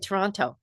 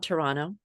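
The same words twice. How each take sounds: First: The second T is clearly pronounced. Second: The second T is dropped. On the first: This marks the speaker as a newcomer. The speaker calls it wrong. "people made fun of me because I would say Toronto. No, you don't say the second T" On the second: This is how locals say it. The speaker calls it right. "I said it correct, correctly"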